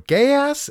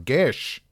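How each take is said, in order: First: The word is said as two syllables. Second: The word is said as one short syllable. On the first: The speaker calls it wrong. "It is not pronounced ... Or gayass" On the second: The speaker calls it right. "it is pronounced... Gish"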